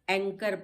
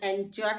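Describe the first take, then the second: First: The middle consonant is a k sound. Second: The middle consonant is a ch sound. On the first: The speaker calls it right. "एंकर पढ़ा है" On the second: The speaker calls it wrong. "इसको हमने एंचर नहीं पढ़ा है"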